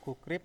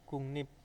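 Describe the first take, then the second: First: The middle is said as a plain 'k-r' sequence. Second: The middle is said as a nasal 'ng-n' sequence. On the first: This is how the word is written. "kata gukrip" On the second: This is how the word is actually pronounced. "menjadi kungnip"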